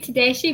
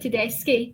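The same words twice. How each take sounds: First: The name is pronounced in an anglicized way. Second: The name is pronounced in an Italian way. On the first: This is how most people say it. The speaker calls it wrong. "most people say Tedeschi" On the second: This is the family's own pronunciation. The speaker calls it right. "but it's actually Tedeschi. It's Italian"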